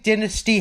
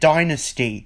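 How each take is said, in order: First: The word has a non-American pronunciation. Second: The word has an American pronunciation. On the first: This is the speaker's preferred way. "I think Dynasty has a better ring to it" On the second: This is how the audiobook said it. "the audiobook pronounced it Dynasty. American English for you"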